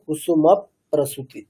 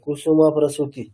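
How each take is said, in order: First: The p sound is doubled onto the previous syllable. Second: The p sound is said once, not doubled. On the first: The speaker calls it right. "ময়ের সাথে একবার করলাম" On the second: The speaker calls it wrong. "এটা উচ্চারণ করতে যতটা একটা অসুবিধা, মানে যদি আমি এরকম বলি"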